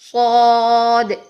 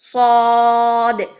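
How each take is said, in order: The two takes are said the same way.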